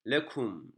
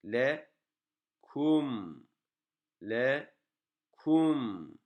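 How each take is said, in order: First: "lekum" said short and joined up; "lekum" as a compact word ending on m; brief stop on mim. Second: "Lekum" split into le, then a long kum; "Lekum" drawn out slowly, syllable by syllable; exaggerated stop on mim. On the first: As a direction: say "lekum" in one go, closing on m. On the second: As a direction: stretch "Lekum", resting on the final m. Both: Shown as a demonstration. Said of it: "Duruyoruz yani".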